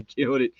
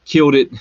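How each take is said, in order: First: Quiet, falling afterthought; soft repeat. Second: Loud, bright exclamation; excited cheer. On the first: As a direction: say it softly to yourself. Repeat after laugh, much softer. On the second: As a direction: cheer it out proudly. Cheering then repeating softly. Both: Real, not acted.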